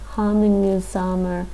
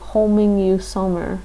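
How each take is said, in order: First: The first vowel is an open 'ah' sound. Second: The first vowel is a rounded 'oh' sound. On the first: The speaker calls it right. "that just doesn't sound like hamingjusamur" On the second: The speaker calls it wrong. "That makes me think homingjusamur"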